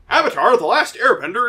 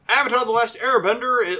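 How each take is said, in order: First: It is read in a put-on dramatic narrator voice. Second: It is read in the speaker's ordinary voice.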